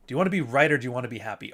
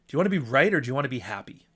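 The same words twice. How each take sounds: First: Catchphrase again, quicker. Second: Catchphrase, quick. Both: Shown as a demonstration. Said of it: "I say that all the fucking time".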